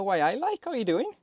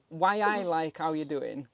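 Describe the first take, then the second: First: Badly imitated Newcastle accent, higher pitched; terrible Geordie accent. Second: Slower Newcastle accent imitation; drawn-out Geordie greeting, imitating a mate; Geordie catchphrase. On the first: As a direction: mimic a Geordie mate's greeting, poorly. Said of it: "which were a terrible way, accent". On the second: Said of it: "is one of the things he says".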